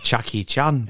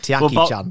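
First: The first name begins with a 'ch' sound. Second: The first name begins with a 'ty' sound. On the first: The speaker calls it wrong. "I thought it was like Chucky Chan" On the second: The speaker calls it right. "it's like Tiaki Chan"

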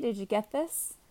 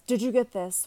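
First: The question sounds light and friendly. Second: The question sounds angry and accusing. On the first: The sender is simply checking in. "Or it could just be" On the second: The sender is blaming the reader. "which is accusing and sounds angry"

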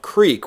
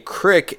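First: The word is said like 'creek'. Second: The word is said like 'crick'. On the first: The speaker calls it right. "of creek" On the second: The speaker calls it wrong. "a crick is the incorrect pronunciation"

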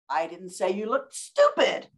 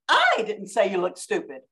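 First: The stress falls on the word stupid. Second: The stress falls on the word I. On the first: Something else, worse, was said. "I said something else" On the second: Someone else said it. "with all the emphasis on the word I"

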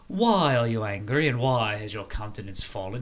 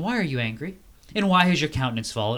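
First: It is spoken in a British accent. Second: It is spoken without a British accent.

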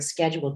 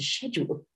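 First: The word has an American pronunciation. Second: The word has a British pronunciation. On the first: "change the word schedule" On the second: "to schedule"

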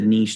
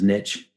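First: It is said with a British accent. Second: It is said with an American accent.

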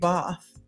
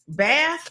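First: It is said in a British accent. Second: It is said in an American accent.

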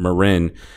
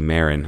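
First: The surname is said the Spanish way. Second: The surname is said the English way. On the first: The name is taken to be Mexican. The speaker calls it wrong. "that's how you pronounce that last name. Or so I thought" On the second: The name is not Mexican. The speaker calls it right. "it's actually Marin"

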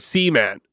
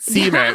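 First: The word is said oddly, sounding like 'semen'. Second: The word is said with its usual pronunciation. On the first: The speaker calls it wrong. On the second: The speaker calls it right.

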